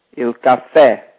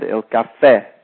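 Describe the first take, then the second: First: "caffè" with the weight on the final "fè", falling off it; "caffè", ca light, fè stressed and falling; stress on the end. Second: "caffè" said again with the final "fè" stressed; stress on the end. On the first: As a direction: lean on the last syllable of "caffè". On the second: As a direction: repeat "caffè", landing hard on the last syllable. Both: Shown as a demonstration. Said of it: "Notice the accent on the end".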